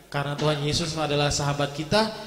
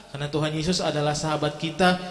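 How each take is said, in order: Both takes have the same delivery.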